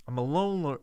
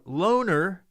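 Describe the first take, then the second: First: Said in the usual way. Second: "loner" repeated higher and louder; stress on loner. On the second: Shown as a demonstration. Stressing "loner" to the listeners, higher and louder. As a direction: punch the word "loner" up high.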